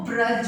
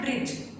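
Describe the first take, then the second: First: The vowel after 'br' sounds like 'a'. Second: The vowel after 'br' sounds like 'i'. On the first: The speaker calls it right. "वो ब्रज होता है" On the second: The speaker calls it wrong. "Normal way में बोलते हैं, लेकिन वो ब्रिज नहीं होता"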